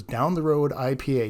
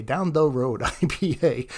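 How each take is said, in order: First: Said in the usual way. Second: Slow, playful emphasis on "the Road"; drawn-out repeat. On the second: Shown as a demonstration. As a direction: stretch out "Down the Road" slowly. Beer name repeated slowly, playfully.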